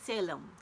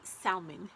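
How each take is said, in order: First: The name is said to sound like 'Salem'. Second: The name is said to sound like 'salmon'. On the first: The speaker calls it right. "Salem is how you pronounce it" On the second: The speaker calls it wrong. "I want to say salmon, and it's not. It's not how you pronounce it"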